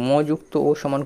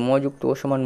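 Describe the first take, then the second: No difference in how they are said.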